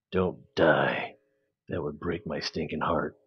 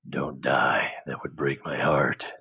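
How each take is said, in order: First: Low, softer action-movie growl of "Don't die"; menacing action hero. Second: Whispered plea. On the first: Pretend. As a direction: play it like a gruff hero in a trailer. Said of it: "Very menacing". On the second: Real, not acted. Pleading with the rocket.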